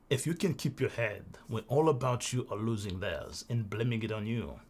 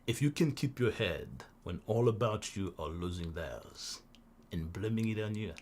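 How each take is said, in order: First: It is read in the speaker's own natural voice. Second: It is read in a put-on radio announcer voice.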